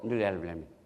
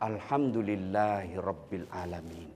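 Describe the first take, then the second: First: It is said carelessly, without sincerity. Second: It is said carefully and sincerely.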